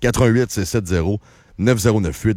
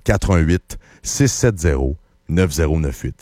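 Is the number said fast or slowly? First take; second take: fast; slowly. First: The number is said at a faster pace. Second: The number is said at a slower pace.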